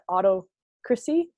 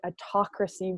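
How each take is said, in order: First: It is said as auto followed by crassy. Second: It is said as one normal word. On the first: The speaker calls it wrong. "like auto first and then crassy" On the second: The speaker calls it right. "oh, right, autocracy"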